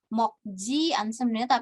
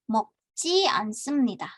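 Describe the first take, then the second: First: The 'j' in 'meokji' is plain and lax. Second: The 'j' in 'meokji' is tense and forceful. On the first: The speaker calls it wrong. "dia bukan 먹지 않습니다" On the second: The speaker calls it right. "tapi 먹지 않습니다"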